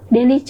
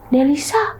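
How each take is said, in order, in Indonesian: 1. Bunyi s diucapkan dengan cadel. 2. Bunyi s diucapkan dengan jelas.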